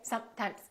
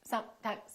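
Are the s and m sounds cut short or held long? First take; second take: cut short; cut short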